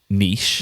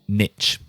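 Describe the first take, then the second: First: It is said with a British pronunciation. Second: It is said with an American pronunciation. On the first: "different to how I say it" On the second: "how it's pronounced in U S English"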